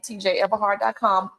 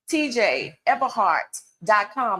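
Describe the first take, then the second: First: It is said fast. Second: It is said slowly.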